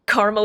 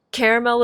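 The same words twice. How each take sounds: First: Caramel as CAR-mel, two syllables; caramel said like the town Carmel; city pronunciation. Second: Caramel as CARE-uh-mel, three syllables; caramel with a full middle vowel; candy pronunciation. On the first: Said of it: "is in city in Indiana". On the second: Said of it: "is in candy". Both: Shown as a demonstration.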